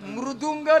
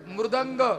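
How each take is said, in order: First: The last syllable is said as 'dung'. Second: The last syllable is said as 'dang'. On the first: The speaker calls it wrong. "मृदुंग नाही दुंग नाही" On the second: The speaker calls it right. "मृदंग मृदुंग नाही"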